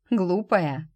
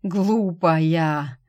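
First: Said in the usual way. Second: Глупая groaned out louder with a falling, hopeless tune; dying man groaning at her stubbornness; doomed groan. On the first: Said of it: "Глупая? Что же, пусть так". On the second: Acted. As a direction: moan it as if all is already lost. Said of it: "обречённый стон".

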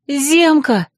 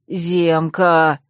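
First: Cry out. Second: Lower, lost and helpless call of the name; bewildered bleat. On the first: Girl crying out as the wounded unicorn collapses on her, frightened cry. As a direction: call his name in fright. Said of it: "вскрикнула я". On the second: Guilty fox calling his wounded friend, lost and helpless. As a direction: call him weakly, at a loss. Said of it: "растерянно блеял он". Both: Acted.

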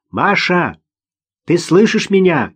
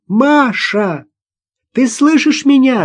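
First: Moderate shout, pitched up a little; calling out. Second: High, urgent shout. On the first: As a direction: call steadily to someone in trouble. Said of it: "крикнул он". (сдержанный окрик) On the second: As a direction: shout to a child out of reach. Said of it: "закричала Наташа". (громкий высокий крик) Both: A narrator's reading.

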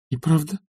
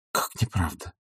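First: High startled question, rising hard; Olga's stunned disbelief; astonished echo. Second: Softer, sinking repeat of the question; quiet wounded echo; hushed disbelief. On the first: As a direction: she can't believe what she just heard. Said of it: "блеснули изумлением". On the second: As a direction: ask it again under her breath, stunned. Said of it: "повторила она ещё". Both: A narrator's reading.

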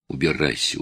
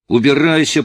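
First: Low, softer choked-up plea; a son holding back sobs. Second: Higher, louder sobbing yell; tearful shout. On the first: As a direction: swallow the word in tears. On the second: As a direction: burst out through tears. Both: A narrator's reading. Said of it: "Слова его потонули в рыданиях".

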